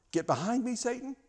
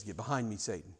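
First: A high, cutting "Get behind me, Satan"; sharp rebuke. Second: "Get behind me, Satan" said low and much softer; quiet rebuke. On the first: Jesus rebukes his best friend Peter, sharp and high. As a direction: snap it out like a karate chop. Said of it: "That's a karate chop right there". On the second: Jesus turns to Peter after weighing it, low and quiet. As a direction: say it low and soft, with heavy resolve. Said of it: "he looks at Peter and says". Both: Acted.

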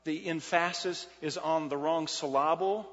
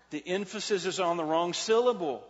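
First: "emphasis" as em-FASS-is, "syllable" as sil-LAH-bul; jokey wrong-syllable stress on "emphasis" and "syllable"; misplaced stress. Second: Said in the usual way. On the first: Shown as a demonstration. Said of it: "what the one pastor said".

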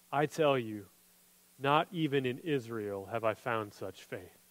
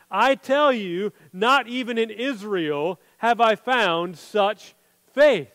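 First: Much softer and lower, reverent; hushed awed quote. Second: Slow, every word weighted, full voice; slow solemn declaration. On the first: Jesus telling the crowd about this faith, hushed. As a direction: say it low as if in awe. Jesus' words read quietly. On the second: Jesus turning to the crowd, slow solemn proclamation. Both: Retold or imitated.

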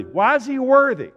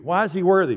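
First: Very loud, high-pitched rhetorical cry; shouted preaching question. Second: Loud, higher-pitched rhetorical question; raised-voice preaching question. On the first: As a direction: shout the question at full force. Repeat escalates to full shout. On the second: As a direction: ask it forcefully of the congregation. First take of escalating rhetorical question. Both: Real, not acted.

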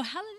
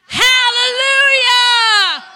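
First: Soft, half-hearted hallelujah; mock weak hallelujah; timid hallelujah. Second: Long, high, very loud hallelujah shout; drawn-out joyful church shout; big shout. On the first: Shown as a demonstration. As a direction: mumble "Hallelujah" like you're shy to say it. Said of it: "Did anybody else say that as loud as me?". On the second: Real, not acted. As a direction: shout "Hallelujah" out to the Lord at full force. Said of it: "Let's shout hallelujah".

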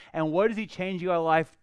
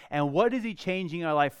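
Both takes have the same delivery.

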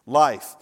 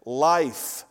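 First: Life, punched louder and falling; preacher drives the answer home, louder; emphatic repeat. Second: Said in the usual way. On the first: Shown as a demonstration. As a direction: hit Life hard the second time.

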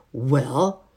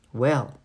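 First: Sharp, loud questioning "Well?". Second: Louder, curt and angry "Well?"; a short, annoyed demand. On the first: Housemaid answers the children's knock, sharply. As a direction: demand it sharply, with a rising end. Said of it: "she asked sharply". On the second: Housemaid asks the laughing children once more, angrily. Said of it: "This time she sounded really angry". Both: A narrator's reading.

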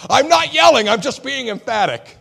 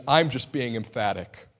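First: Shouting much higher and louder, insisting he isn't yelling; husband yelling during a heated argument with his wife. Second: Said in the usual way. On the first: Retold or imitated. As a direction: yell at your wife while denying it. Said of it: "what I tell my wife when we're really getting heated".

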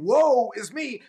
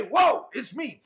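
First: Slow, drawn-out woeful sigh; mock lament. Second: Higher, glad whoa; joyful exclaim. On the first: Preacher telling sufferers what not to say, slow mock lament. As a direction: stretch it like self-pity. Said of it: "instead of saying". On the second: Preacher telling sufferers what to say instead, glad exclaim. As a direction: lift it up with gladness. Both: Shown as a demonstration.

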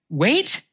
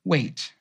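First: Incredulous "wait?" rising sharply higher; indignant. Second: Soft, gentle one-word answer. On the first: Poet echoing God's answer, indignant and high. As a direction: throw the word back in disbelief. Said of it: "My indignant reply". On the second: God answering the pleading poet, gentle and hushed. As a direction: hush it down, a tender "Wait.". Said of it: "my master so gently said". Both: Acted.

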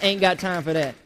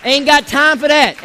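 First: Softer and lower, fading out; quiet throwaway. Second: Louder, slower, stressing got; slow, loud, dismissive, leaning on got; emphatic dismissal. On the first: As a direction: let it drop to a soft mutter. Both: Shown as a demonstration. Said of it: "repeated three times".

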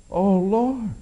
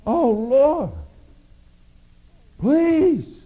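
First: Louder pleading cry to God. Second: Much higher and louder, near breaking; anguished cry. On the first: Paul cries out a third time, pleading. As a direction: call out to the Lord with need. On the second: Paul's third plea climbs to anguish. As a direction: reach for God at full strength. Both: Acted. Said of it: "Paul cried out to God".

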